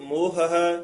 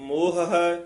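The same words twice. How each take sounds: Both takes have the same delivery.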